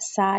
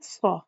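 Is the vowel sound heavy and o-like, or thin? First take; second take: thin; heavy. First: The vowel is thin, like a light a. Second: The vowel is heavy, leaning toward o. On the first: The speaker calls it wrong. "अलिफ की अदायगी को बारीक भी नहीं करना" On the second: The speaker calls it right. "ओ की साउंड होनी चाहिए"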